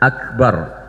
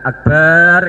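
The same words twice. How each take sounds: First: The vowel in the last syllable is kept short. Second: The vowel in the last syllable is drawn out. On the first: It means greatest. The speaker calls it right. "harusnya akbar" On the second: It comes to mean a drum instead of greatest. The speaker calls it wrong. "nggak boleh"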